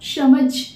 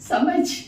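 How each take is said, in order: First: The word begins with an 'sh' sound. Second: The word begins with a plain 's' sound. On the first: The speaker calls it wrong. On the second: The speaker calls it right.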